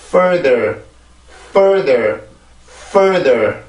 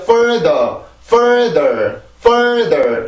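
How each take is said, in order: First: "Further" low, gliding smoothly into the second syllable; rhythm carried through. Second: "Further" high, dropping off abruptly between syllables; choppy wrong rhythm. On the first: Teacher models normal pronunciation for learners, low connected rhythm. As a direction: ride the rhythm of "further" down without breaking it. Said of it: "낮게 이렇게 타고 넘어가줘야". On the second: Teacher shows learners the faulty rhythm, choppy and dropping. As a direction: say "further" pitched up, with a disconnected drop. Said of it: "이렇게 뚝뚝 떨어지면 안 돼요". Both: Shown as a demonstration.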